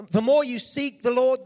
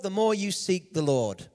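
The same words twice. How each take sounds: First: "more" pushed higher and louder, the whole line lifted; emphatic repeat. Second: Said in the usual way. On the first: Real, not acted. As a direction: punch "the more you seek the Lord" up high and loud. Preacher repeats phrase with emphasis.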